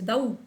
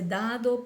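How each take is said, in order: First: The d is dropped, ending in au. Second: The last syllable keeps its d sound. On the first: This is how people in Santa Cruz say it informally. "dice dau" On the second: This is the standard form of the word. "ni siquiera dice dado"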